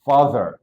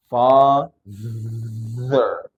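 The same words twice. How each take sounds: First: Said in the usual way. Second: FATHER stretched out, buzzing on the th; slow teaching take of FATHER with long th; drawn-out demo. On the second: Shown as a demonstration. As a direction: draw out the voiced th in FATHER. Teacher drills the word.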